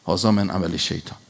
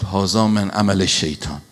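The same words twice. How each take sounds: First: Whispered repeat of هذا من عمل شیطان, unvoiced and hushed; preacher whispering the Quranic line back to the congregation. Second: Said in the usual way. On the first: Shown as a demonstration. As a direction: breathe the verse out as a hushed echo.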